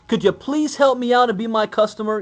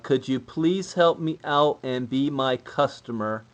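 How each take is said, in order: First: It is said with excitement and emotion. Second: It is said hesitantly, like reading a script.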